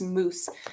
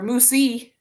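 First: The word ends on the s sound. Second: An extra vowel sound follows the final s. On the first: The speaker calls it right. "It's just moose. So I know that E is silent" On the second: The speaker calls it wrong. "it's not moose or moosey"

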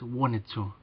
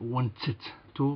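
First: The T sound is pronounced softly. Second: The T sound is pronounced strongly and clearly. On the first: The speaker calls it right. "I think you pronounce that T sound more soft" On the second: The speaker calls it wrong. "It's not wanted to"

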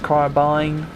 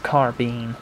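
First: The word is pronounced the British English way. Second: The word is pronounced the American English way. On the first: "If you're an English speaker, then it's carbine" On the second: "If you're an American, then it's carbine"

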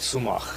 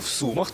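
First: The stress falls on the last syllable. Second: The stress falls on the first syllable. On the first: This is the local, archaic form. "жителі міста Суми кажуть в Сумах" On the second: This is the standard literary form. "за стандартною літературною мовою, звичайно, буде в Сумах"

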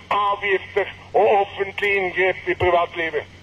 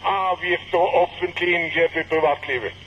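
Both takes have the same delivery.

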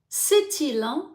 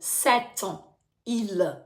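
First: The words run together without a break. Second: The words are said apart with a break. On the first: The speaker calls it right. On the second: The speaker calls it wrong.

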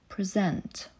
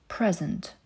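First: The stress is on the second syllable. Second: The stress is on the first syllable. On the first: It is used as a verb. "Wręczać" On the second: It is used as a noun.

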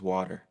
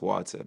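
First: The word is said with an American accent. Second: The word is said with a British-style accent. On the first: This is how people in the States say it. "but over here it's water" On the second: This is how people back home say it. "that's the same back home, it's water"

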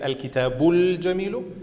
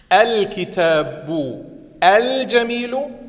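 First: The words run together, with the article sound linked. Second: Each word is pronounced separately, with its full article.

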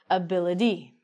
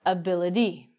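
First: The middle T is said like a soft D sound. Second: The middle T is said like a soft D sound.

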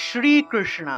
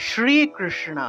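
No difference in how they are said.

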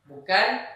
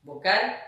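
No difference in how they are said.

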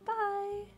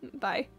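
First: It is said in a very high voice. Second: It is said in a normal voice.

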